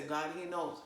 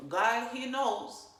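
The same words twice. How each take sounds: First: Said in the usual way. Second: GOD, HE KNOWS slow, loud and high; emphatic repeat. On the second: Shown as a demonstration. Speaker hammering home a saying to viewers, slow, loud emphasis. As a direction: stretch out "God, he knows" with force.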